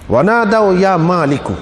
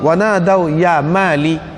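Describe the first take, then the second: First: The name is said in full, ending with -ku. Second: The name is cut short, ending on -li. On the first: A plain call to the guardian. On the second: A soft, pleading, coaxing call.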